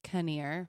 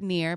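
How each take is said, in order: First: The name is said as two syllables. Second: The name is said as one syllable. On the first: The speaker calls it right. "but it's Kinnear" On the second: The speaker calls it wrong. "People always pronounce it near"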